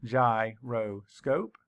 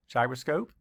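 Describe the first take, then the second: First: Gyroscope said slowly, gy-ro-scope; syllables split. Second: Said in the usual way. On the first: Shown as a demonstration. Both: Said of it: "Count the syllables".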